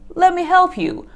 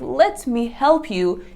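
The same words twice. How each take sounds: First: The words run together into a shortened form. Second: Every word is said fully and separately. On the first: "you would say" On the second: "instead of saying"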